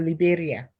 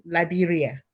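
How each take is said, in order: First: "Liberia" opening with "lee", then "beh-ria"; Italian pronunciation of Liberia. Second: Said in the usual way. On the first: Shown as a demonstration. Guest welcomes viewers in Italian, "Liberia" pronounced lee-BEH-ria. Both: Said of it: "if I say it in Italian".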